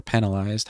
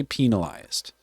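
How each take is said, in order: First: Penalized with a short "e": PEN-uh-lized; short-e first syllable. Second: Penalized with a long "ee": PEE-nuh-lized; long-e first syllable. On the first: Streamer offering the other pronunciation, penalized said PEN-alized. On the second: Streamer reading policy aloud, penalized said PEE-nalized. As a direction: say penalized starting like "pea". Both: Shown as a demonstration. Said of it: "however you wanna say it".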